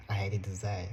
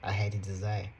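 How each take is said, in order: Both takes have the same delivery.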